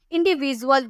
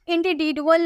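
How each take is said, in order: First: Said in the usual way. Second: इंडिविजुअल with a hard "d" in place of "j"; wrong d sound. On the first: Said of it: "बोलते हैं". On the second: Shown as a demonstration. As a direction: say "indi-di-dual" for इंडिविजुअल. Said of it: "नहीं बोलते हैं".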